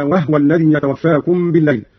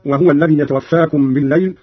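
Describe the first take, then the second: First: وهو said "wahwa", no vowel after the h; silent vowel on the haa. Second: Said in the usual way. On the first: Shown as a demonstration. Teacher demonstrating Qalun's reading, وهو said as "wahwa". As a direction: drop the u in وهو: "wah-wa". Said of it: "بإسكان الهاء على التخفيف هكذا". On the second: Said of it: "قرأ قالون بإسكان الهاء".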